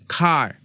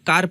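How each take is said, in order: First: The k is said with a puff of air. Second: The k is said without a breath of air. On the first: The speaker calls it right. "ह की आवाज के साथ खार पढ़ना चाहिए" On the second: The speaker calls it wrong. "ज्यादातर लोग कार पढ़ते हैं, जो कि गलत अदायगी है"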